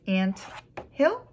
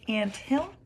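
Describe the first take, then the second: First: Syllable by syllable. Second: Said in the usual way. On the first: Shown as a demonstration. Teacher showing two syllables, broken apart. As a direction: break it apart, lifting "hill" sharply. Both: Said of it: "those all had two syllables".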